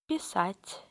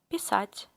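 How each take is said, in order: No difference in how they are said.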